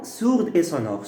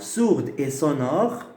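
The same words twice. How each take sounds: First: Said in the usual way. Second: Sourde drawn out with a rising tune; each word spelled out slowly for students; slow, deliberate sourde et sonore. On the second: Shown as a demonstration.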